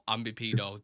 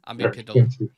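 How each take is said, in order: First: The word ends with an O sound. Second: The word ends with an L sound. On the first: The speaker calls it wrong. "not ambipedo. Do not call any centre back that" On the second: The speaker calls it right. "Ambipedal, not ambipedo"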